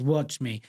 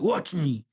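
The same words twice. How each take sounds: First: It is said calmly, without anger. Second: It is said aggressively, with anger.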